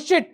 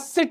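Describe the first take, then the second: First: The word begins with a sh sound. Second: The word begins with an s sound. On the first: The speaker calls it wrong. "कह देते हो शिट" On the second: The speaker calls it right. "सिट बोलना है"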